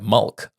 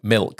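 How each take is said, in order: First: The vowel is centralised, sounding like mulk. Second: The vowel is a plain short i sound.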